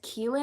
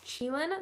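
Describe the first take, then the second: First: The word begins with a hard k sound. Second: The word begins with a ch sound. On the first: The speaker calls it wrong. "I pronounced it as Keelan in the video because that's what Google said" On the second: The speaker calls it right. "one of you guys corrected me and said it's Cheelan, so I'm going to pronounce it properly"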